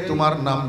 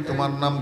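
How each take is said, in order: Both takes have the same delivery.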